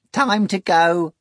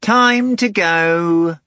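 First: High, slow rattling voice. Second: Very slow, high, loud cat echo; drawn-out cat echo. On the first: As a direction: rattle out the summons. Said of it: "A third rattling voice said". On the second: Cat echoes the summons. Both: A narrator's reading.

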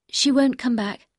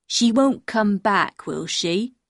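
First: Said in the usual way. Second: Put-on very slow, childlike question from a dim man; drawn-out, dim-witted questioning; simple-minded man. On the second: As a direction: ask slowly, as a simple fisherman. Simple man asks anxiously.

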